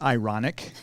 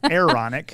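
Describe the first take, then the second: First: The first syllable sounds like 'eye'. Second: The first syllable sounds like 'air'. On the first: The speaker calls it wrong. "It's not ironic. Some people pronounce it" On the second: The speaker calls it right. "It's an Aaronic, like as an Aaron"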